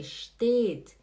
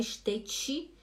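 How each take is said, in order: First: Steht stopping on a plain t; clean final T. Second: Steht ending in a Brazilian "chi"; mispronounced steht with an extra i after the t; wrong added vowel. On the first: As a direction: say "steht" as shteet, no vowel after it. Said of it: "é steht". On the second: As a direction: say "steht" as shte-tchi. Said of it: "não é steht". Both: Shown as a demonstration.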